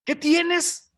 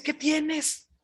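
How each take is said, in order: First: High, louder, pushy "¿Qué tienes?"; a wife who demands an answer, high and a bit loud; sharp demanding wife. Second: A wife pretending tender concern, high and hushed; mock sweet wife. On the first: Retold or imitated. Jezabel presses her sulking husband, high impatient demand. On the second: Jezabel asks sulking king Acab, mock-sweet high voice. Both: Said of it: "Ya ves cómo son las mujeres muy amables para preguntar".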